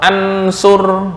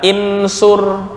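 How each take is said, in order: First: The word begins with an a vowel. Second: The word begins with an i vowel. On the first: "atau ansur, nggak" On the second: "nggak boleh dibaca insur"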